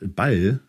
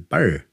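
First: The L is a clear standard German L. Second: The L sounds like a swallowed R, Thuringian-style.

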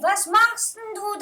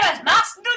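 First: The words are drawn out long. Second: The words are said short and clipped. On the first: The speaker is calling to someone far away. The speaker calls it right. "dann zieht man meistens die Worte länger" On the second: The speaker is calling to someone nearby. The speaker calls it wrong. "dann ruft man nicht"

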